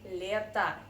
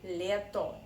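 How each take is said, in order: First: The final vowel is reduced to an 'ah' sound. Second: The final vowel is a full 'oh' sound. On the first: The speaker calls it right. "That's why we say leta instead of leto" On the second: The speaker calls it wrong. "there is no Russian person who would say leto"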